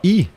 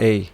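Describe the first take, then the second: First: The sound is said as a plain 'i' vowel. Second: The sound is said as an 'ei' diphthong. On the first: The speaker calls it right. "você vai falar i" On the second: The speaker calls it wrong. "você não vai falar ei"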